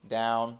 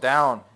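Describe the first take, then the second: First: It is said in a soft, gentle voice. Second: It is said in a rough, growling voice. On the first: This is the usual training command. "I use a very soft voice" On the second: The dog has disobeyed. "in a growly voice"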